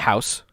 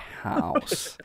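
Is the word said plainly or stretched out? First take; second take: plainly; stretched. First: The word is said plainly, in a normal voice. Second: The word is drawn out, in a narrator voice. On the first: "normally I would say" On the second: "but I say house like house"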